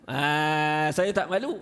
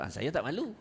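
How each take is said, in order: First: "saya tak malu" said louder and brighter, flaunting it; mock shameless boast. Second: Said in the usual way. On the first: Teacher mocking a shameless person, louder proud boast. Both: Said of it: "Mana dia kata".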